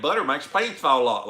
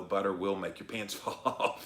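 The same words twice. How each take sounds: First: Exaggerated Southern accent, higher and louder; fake Southern accent. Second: Said in the usual way. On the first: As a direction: belt it out in a put-on Southern twang. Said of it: "fake Southern accent". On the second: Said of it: "when you gotta say it like that".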